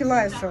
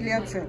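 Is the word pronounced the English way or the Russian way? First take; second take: English; Russian. First: The word is given an English pronunciation. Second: The word is given a Russian pronunciation. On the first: "по-английски лиоцел это произносится" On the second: "По-русски лиоцел"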